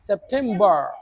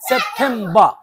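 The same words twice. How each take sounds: First: It is said in an American accent. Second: It is said in a British accent. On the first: "আমরা যদি American স্টাইলে বলি" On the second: "যদি ব্রিটিশদের মতো করে বলি"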